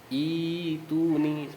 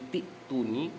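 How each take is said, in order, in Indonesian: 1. Dimulai dengan vokal panjang ee. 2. Dimulai dengan bunyi t sambung. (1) "hamzah yang ada di situ harus diganti dengan iya" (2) "ketika diwasol maka hamzahnya dibaca menjadi tituni"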